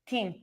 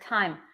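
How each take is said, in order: First: The word is pronounced as it was misread. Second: The word has its standard English pronunciation. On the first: "I will pronounce it team" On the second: "when I saw the word time"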